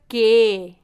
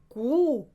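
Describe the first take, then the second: First: The letter name ends in an 'eh' vowel. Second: The letter name ends in an 'oo' vowel. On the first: It is the normal Brazilian letter name. The speaker calls it right. "Sempre diga que" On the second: It sounds like a rude word in Brazil. The speaker calls it wrong. "Se você falar cu, como na Argentina, pode soar muito estranho no Brasil"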